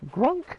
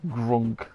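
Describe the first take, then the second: First: Grunk with a high rising tune; questioning Grunk. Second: Said in the usual way. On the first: Shown as a demonstration. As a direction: ask Grunk, unsure of the word. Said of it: "Is that the word for it?". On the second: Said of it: "Grunk? Is that the word for it?".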